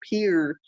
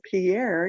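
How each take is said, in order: First: It is said the way locals pronounce it. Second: It is said the way outsiders pronounce it. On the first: The speaker is from South Dakota. The speaker calls it right. "we pronounced it Pierre" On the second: The speaker is not from South Dakota. The speaker calls it wrong. "you pronounce it Pierre, you're not from South Dakota"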